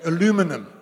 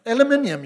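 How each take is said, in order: First: "Aluminum" said the American way, stressed on LU; American pronunciation. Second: "Aluminium" with the extra i, stressed on MIN, higher and louder; British-style pronunciation. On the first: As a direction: say "Aluminum" American-style, stress on the second syllable. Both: Shown as a demonstration. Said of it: "put the emphasis on the wrong syllable".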